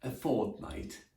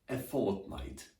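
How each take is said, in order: First: 1 slow careful model. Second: Said in the usual way. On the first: Shown as a demonstration. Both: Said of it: "more commonly used".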